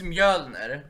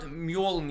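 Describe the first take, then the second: First: "Mjölner" with Swedish ö, slow and loud; Swedish pronunciation. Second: "Mjolnir" with an English o and -neer ending; anglicised pronunciation. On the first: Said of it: "it's Mjölner". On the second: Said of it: "it's not Mjolnir". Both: Shown as a demonstration.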